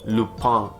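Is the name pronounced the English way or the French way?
French. The name is said with a French pronunciation. "It's a French show called Lupin"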